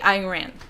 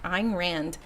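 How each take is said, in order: First: The final D sound is left off. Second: The final D sound is clearly pronounced. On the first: The speaker calls it wrong. "I always forget to say the D at the end" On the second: The speaker calls it right. "I pronounce it properly"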